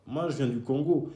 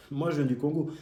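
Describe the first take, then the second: No difference in how they are said.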